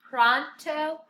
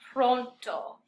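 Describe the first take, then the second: First: The first vowel is an ah-like English vowel. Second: The first vowel is a pure, rounded O. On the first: The speaker calls it wrong. "we're used to saying pra, a, pronto" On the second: The speaker calls it right. "that hard O with the first O"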